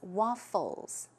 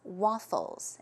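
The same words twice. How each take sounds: First: The middle consonant is an F sound. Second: The middle consonant is an F sound.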